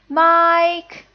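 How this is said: The pitch stays high and level. Calling someone in for dinner. "That's the first tone"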